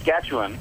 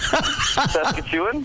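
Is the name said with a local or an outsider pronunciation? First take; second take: local; outsider. First: The name is said in the local pronunciation. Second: The name is said imitating an outsider's pronunciation. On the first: This is how people from there say it. "we say Saskatchewan" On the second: This is how the other person says it. "I can try and say it your way"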